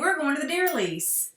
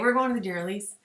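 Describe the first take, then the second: First: It is said in an excited, happy tone. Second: It is said in a reluctant, dutiful tone.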